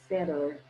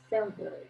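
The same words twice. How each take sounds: First: The T sound is dropped. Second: The T sound is clearly pronounced.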